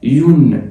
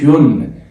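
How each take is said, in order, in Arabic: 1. تبدأ بصوت y قبل الحركة. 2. تبدأ بصوت y قبل الحركة.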